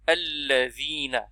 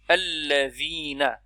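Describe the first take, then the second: First: The word starts with a short a vowel. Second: The same.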